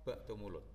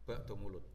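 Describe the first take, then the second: Both takes have the same delivery.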